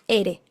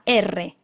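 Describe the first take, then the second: First: The r is a single soft tap. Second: The r is a strong trill. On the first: The speaker calls it right. "la R suave del español" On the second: The speaker calls it wrong. "no es la R"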